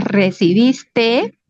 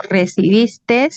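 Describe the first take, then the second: First: Slow "recibiste" ending on an open, lengthened te; no final S. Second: Slow "Recibiste" ending in an extra s, re-ci-bis-tes; added final S. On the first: Teacher giving the correct verb, "recibiste" pronounced re-ci-bis-teee. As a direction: stretch "recibiste" and finish on the vowel, without s. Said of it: "Es recibiste". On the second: Teacher showing a barbarism, "Recibiste" pronounced recibistes. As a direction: draw out "Recibiste" and close it on a hissed s. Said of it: "Esta S jamás va a ir". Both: Shown as a demonstration.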